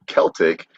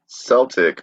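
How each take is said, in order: First: The word begins with a hard K sound. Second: The word begins with a soft S sound. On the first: This is the newer, now usual pronunciation. "The now dominant pronunciation" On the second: This was the older usual pronunciation. "was once overwhelmingly the norm"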